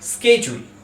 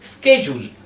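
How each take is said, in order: First: It is said in an American English accent. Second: The same.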